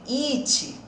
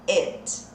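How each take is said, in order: First: The vowel sounds like a tense Portuguese 'i'. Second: The vowel sounds closer to a Portuguese 'e'. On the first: The speaker calls it wrong. "e não de it" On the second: The speaker calls it right. "ele tem um som de e"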